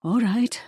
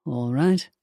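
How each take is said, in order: First: High, trembling attempt to sound brave; shaky brave voice. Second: Said in the usual way. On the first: A narrator's reading. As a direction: fake the courage while the voice shakes. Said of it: "her voice shook as she spoke".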